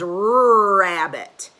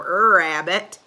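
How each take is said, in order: First: The word begins with a plain consonant r. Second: The word begins with a drawn-out er vowel. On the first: The speaker calls it right. "It says rabbit" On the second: The speaker calls it wrong. "It doesn't go er rabbit"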